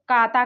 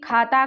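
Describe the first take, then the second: First: The first consonant is plain, without a puff. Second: The first consonant is aspirated, with a puff.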